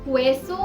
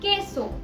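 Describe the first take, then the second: First: The word begins with a kw sound. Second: The word begins with a plain k sound. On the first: The speaker calls it wrong. "क्वेसो और क्वीन से नहीं" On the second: The speaker calls it right. "की और के बुलाया जाएगा"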